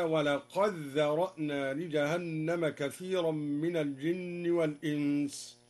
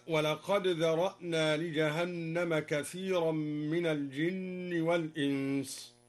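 First: "ولقد ذرأنا" recited slowly, dal merged into a doubled dhal; al-Duri's assimilation. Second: Said in the usual way. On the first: Shown as a demonstration. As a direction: run "ولقد" into "ذرأنا" as "walaqadh-dhara'na". (إدغام الدال في الذال في «ولقد ذرأنا») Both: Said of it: "أدغم الدوري الدال في الذال هكذا".

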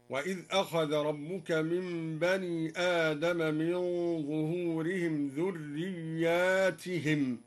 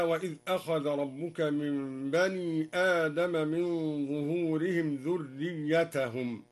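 First: "ذرياتهم" recited with drawn-out "yaa" and "tihim"; plural with long ya. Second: Said in the usual way. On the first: Shown as a demonstration. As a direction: lengthen the ya in "ذرياتهم", kasra on its ta. («ذرياتهم» بمد الياء وكسر التاء) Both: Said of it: "قرأ الدوري بمد الياء وكسر التاء".

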